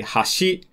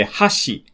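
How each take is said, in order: First: Rising pitch on hashi; pitch accent. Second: Hashi high then low, the chopstick word; falling pitch on hashi; pitch accent. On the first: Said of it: "that means bridge". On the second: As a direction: start hashi high and drop on shi. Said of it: "pronounced higher or lower". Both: Shown as a demonstration.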